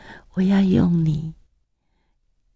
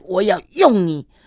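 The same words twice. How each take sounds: First: The voice is even softer and more tender. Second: The voice is plain, not especially gentle. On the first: "更软更柔的声音告诉我" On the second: "就是用这样的声音跟我讲。"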